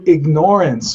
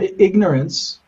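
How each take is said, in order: First: It sounds like the verb ignore plus ance. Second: It has the ordinary pronunciation of the word. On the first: Willfully ignoring something one knows about. "small change in the pronunciation, huge meaning" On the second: Simply not knowing, which is forgivable. "which is sort of forgivable"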